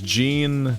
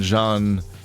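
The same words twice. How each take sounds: First: The name is said with English pronunciation. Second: The name is said with French pronunciation. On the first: "Jean in English" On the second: "Jean in uh, in French"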